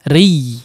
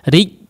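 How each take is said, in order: First: The syllable is struck firmly but its sound continues. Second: The syllable is struck and its sound stops dead. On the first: The speaker calls it right. "Memang dihentakkan ri, ri, tapi tidak dimatikan" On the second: The speaker calls it wrong. "Ri, tidak demikian ya"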